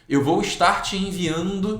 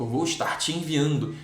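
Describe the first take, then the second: First: Slightly raised, slow eu vou estar te enviando; mimicking an office worker's email phrasing; mocking office email. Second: Said in the usual way. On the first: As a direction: imitate the corporate gerund habit. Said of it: "fala assim".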